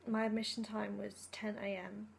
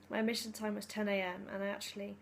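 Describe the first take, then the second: First: Hoarse, whispery sore throat; words scraped out through a raw throat. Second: Said in the usual way. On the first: Real, not acted. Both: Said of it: "I've got a bit of a sore throat".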